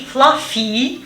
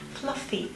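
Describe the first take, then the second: First: The first vowel sounds like an e. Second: The first vowel is short and centralized. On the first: The speaker calls it wrong. "also not this um, E" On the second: The speaker calls it right. "the short one, you remember the non-phonemic one, this um, centralized one"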